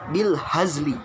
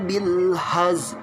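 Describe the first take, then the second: First: The last word ends with a full vowel. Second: The last word stops short without the vowel. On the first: This is how it is written. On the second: This is how it is recited when pausing.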